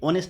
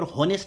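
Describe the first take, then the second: First: Honest said "onest" with the h silent, starting on an o vowel. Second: Honest said with a clear spoken h, "hon-est"; wrong h sound. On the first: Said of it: "ये honest man है". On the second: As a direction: pronounce honest with the h sounded, as a mistake. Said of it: "honest man नहीं". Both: Shown as a demonstration.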